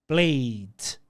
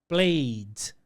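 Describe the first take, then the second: The two takes are said the same way.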